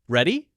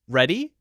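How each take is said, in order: First: The pitch rises at the end. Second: The pitch rises at the end.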